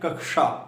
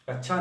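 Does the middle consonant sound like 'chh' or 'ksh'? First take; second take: ksh; chh. First: The middle cluster is pronounced as a clear 'ksh'. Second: The middle cluster is pronounced like 'chh'. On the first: The speaker calls it right. "क्या कहना चाहिए? कक्षा।" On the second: The speaker calls it wrong. "कक्षा नहीं कहना चाहिए। अगर छा कहेंगे"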